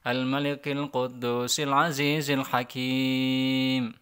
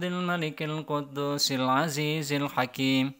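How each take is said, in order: First: The final long vowel is drawn out longer. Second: The final long vowel is held briefly. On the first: "Atau saya panjangin" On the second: "dua harokat boleh"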